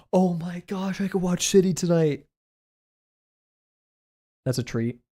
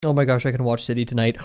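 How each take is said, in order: First: Hushed excitement. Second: Said in the usual way. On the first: Real, not acted. Streamer realizing they can watch City tonight, softly gasping with excitement. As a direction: marvel softly in a raised voice.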